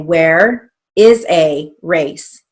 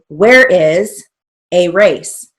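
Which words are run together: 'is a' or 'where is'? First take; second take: is a; where is. First: "Is a" is run together as one unit. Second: "Where is" is run together as one unit.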